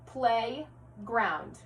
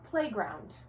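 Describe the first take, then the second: First: "Playground" split in two, a clear pause between play and ground; segmented syllables. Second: Said in the usual way. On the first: Shown as a demonstration. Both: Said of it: "combining and segmenting syllables".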